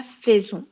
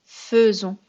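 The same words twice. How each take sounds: First: "faisons" said with an open è, like fè-zon; wrong pronunciation. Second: "faisons" said with a rounded eu sound, like feu-zon; correct pronunciation. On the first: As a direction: mispronounce "faisons" with the è of "fait". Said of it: "on dit pas faisons". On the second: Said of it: "on dit faisons". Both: Shown as a demonstration.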